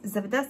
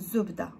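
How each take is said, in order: First: The first vowel sounds like 'a'. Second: The first vowel sounds like 'u'. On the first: This is the older, traditional form. "Mais à l'ancienne, on dit Zabda" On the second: This is the simpler form young people use. "Ou si vous voulez, c'est plus simple"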